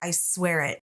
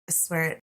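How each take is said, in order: First: The words are clearly and crisply enunciated. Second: The words are mumbled and swallowed in the throat. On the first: The promise is made without hesitation. The speaker calls it right. "Enunciated it" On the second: The promise is made reluctantly. The speaker calls it wrong. "it like caught in her throat"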